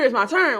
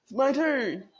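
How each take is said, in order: First: Eager, raised voice, claiming a turn; mock eager. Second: It's my turn, said higher with a falling end; mock eager, higher. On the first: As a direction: impatiently announce it's my turn. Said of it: "y'all done on the computer". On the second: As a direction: sing out your turn with a little triumph. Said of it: "I'm over here".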